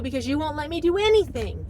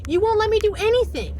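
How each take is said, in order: First: Said in the usual way. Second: Louder insistent repeat. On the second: Retold or imitated. Wife insists to husband she is allowed nothing, raised and loud. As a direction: say it again much higher and louder, pleading.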